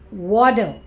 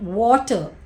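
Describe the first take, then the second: First: The middle consonant sounds like a soft D. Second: The middle consonant sounds like a clear T. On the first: "T takes the sound of D" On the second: "it's not water"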